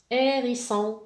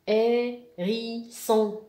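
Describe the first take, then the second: First: Said in the usual way. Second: "Hérisson" slowly split as hé, ri, son; loud, slow "Hérisson" with gaps between syllables. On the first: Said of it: "نسمع الكلمة ونحاول نلقى". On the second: Shown as a demonstration. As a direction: stretch and separate the three syllables of "Hérisson". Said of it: "لا سيلاب اللي فيها حرف".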